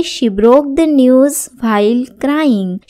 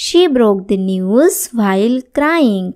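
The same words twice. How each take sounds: First: Said in the usual way. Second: Very slow, every word laid out clearly; slow model sentence. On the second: Shown as a demonstration. Teacher reading the example sentence to students, very slow. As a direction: say it slowly so learners can follow. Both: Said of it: "teacher models English sentence".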